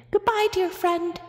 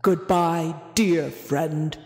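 First: High, squeaky mouse farewell. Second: Low, loud, rumbling farewell; rumbling whale. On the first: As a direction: squeak it like a tiny tearful mouse. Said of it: "squeaked Amos". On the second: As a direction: rumble it like a huge sad whale. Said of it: "rumbled Boris". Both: A narrator's reading.

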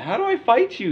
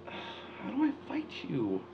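First: Yelled. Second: Whisper. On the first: Loud take of the same question. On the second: Whispered repeat in tense moment. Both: Real, not acted.

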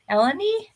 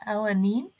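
First: "Eleni?" said higher with a bright questioning rise; second try at "Eleni?", EL-uh-nee, pitched up as if asking; "Eleni?" lifted high, checking it's right; rechecking the name. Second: First careful guess at "Eleni?", EL-uh-nee; "Eleni?" sounded out hesitantly; unsure name try. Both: Shown as a demonstration. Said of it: "I hope I said that right".

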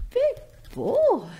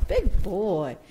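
First: Very high cooing praise for the bird. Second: Said in the usual way. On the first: Real, not acted. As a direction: coo it up high and sweet. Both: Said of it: "repeated praise, plain then high".

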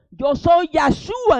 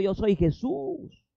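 First: Slow, loud divine pronouncement, higher; voice of the Lord. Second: Said in the usual way. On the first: Acted. The voice from heaven naming itself to Saul, slow and loud. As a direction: proclaim each word slowly from above. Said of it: "Oiga lo que le dijo la voz". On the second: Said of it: "No le dijo".

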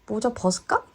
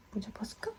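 First: Said in the usual way. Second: Hushed whisper to a pet. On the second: Real, not acted. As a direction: whisper it softly. Whispered repeat to the dog.

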